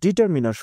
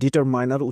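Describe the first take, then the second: First: The third syllable has a short 'i' vowel. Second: The third syllable has a long 'eye' vowel. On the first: "দুইটাই ঠিক আছে" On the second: "অনেকে ডিটারমিনারকে ডিটারমাইনার উচ্চারণ করে থাকেন"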